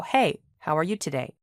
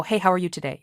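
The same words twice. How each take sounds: First: A small pause after Hey before how are you today. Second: Said in the usual way. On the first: Shown as a demonstration. Teacher showing the comma pause, a beat after Hey. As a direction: let Hey stand alone, then ask how are you today. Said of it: "you have a little pause when you say this". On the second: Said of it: "You don't go".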